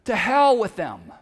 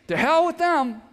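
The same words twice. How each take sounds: First: "To hell with them", with a hard stress on "hell"; a blunt, loud "To hell with them"; blunt paraphrase. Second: "To hell with them" said again, pitched up, stress on "hell"; a higher, cheekier second take of "To hell with them"; repeated, higher. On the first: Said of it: "English equivalent of this". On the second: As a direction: toss off "To hell with them" with a high cheeky lift. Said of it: "That's what that means". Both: Shown as a demonstration.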